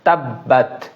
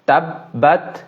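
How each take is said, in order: No difference in how they are said.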